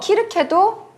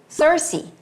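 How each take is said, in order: First: The name begins with a K sound. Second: The name begins with an S sound. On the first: This is the Greek form of the name. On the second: This is the English form of the name.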